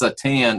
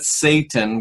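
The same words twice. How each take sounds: First: The stress is on the second syllable. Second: The stress is on the first syllable. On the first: The speaker calls it right. "emphasis on the second syllable" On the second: The speaker calls it wrong. "it's not Satan with the emphasis on the first word"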